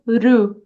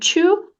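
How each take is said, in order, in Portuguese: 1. A palavra começa com um r de tepe. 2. A palavra começa com um t bem claro. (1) "ou ru" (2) "como to"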